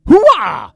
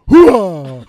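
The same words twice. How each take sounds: First: It is said in a higher voice. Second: It is said in a deeper voice.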